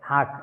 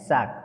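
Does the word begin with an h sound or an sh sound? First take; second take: h sound; sh sound. First: The word begins with an h sound. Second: The word begins with an sh sound.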